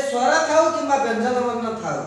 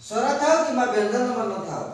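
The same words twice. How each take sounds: The two takes are said the same way.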